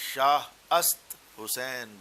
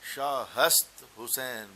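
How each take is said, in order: First: The middle word begins without an h sound. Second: The middle word begins with an h sound.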